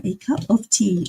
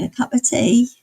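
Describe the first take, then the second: First: "A cup of tea" with a full, crisp "of", carefully enunciated; careful elocution. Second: A light cockney "A cup of tea" with "of" slurred to "a"; Eliza Doolittle cockney. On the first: Streamer quotes Eliza learning to speak properly, a touch of careful enunciation. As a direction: say "A cup of tea" like a pupil who just learnt proper diction. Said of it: "learning how to say it". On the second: Streamer quotes a chat sound bite, light cockney imitation. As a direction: lightly mimic an unschooled flower girl saying "A cup of tea". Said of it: "it's Eliza Doolittle saying".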